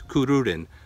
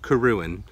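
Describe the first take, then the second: First: The word is said with two r sounds. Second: The word is said with only one r sound. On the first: The speaker calls it right. "So there's two R's in there" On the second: The speaker calls it wrong. "they're missing the second R"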